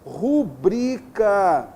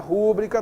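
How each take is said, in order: First: The stress is on the second syllable. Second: The stress is on the first syllable. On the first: The speaker calls it right. "a palavra rubrica ... são paroxítonas" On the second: The speaker calls it wrong. "não é rúbrica, toma cuidado"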